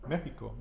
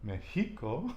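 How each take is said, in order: First: The stress is on the first syllable. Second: The stress is on the second syllable. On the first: The speaker calls it right. "because we have the accent over the E" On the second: The speaker calls it wrong. "using the vowel on the end rule, it should be Mexico"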